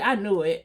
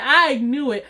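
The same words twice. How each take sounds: First: Said in the usual way. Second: "I knew it" said again, firmer and a bit louder; emphatic repeat. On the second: Retold or imitated. Confirming to listeners she suspected Rhonda, emphatic. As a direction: land it hard the second time. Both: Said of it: "I said, I knew it".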